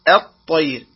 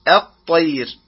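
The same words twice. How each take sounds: First: The opening glottal stop sounds light and thin. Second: The same.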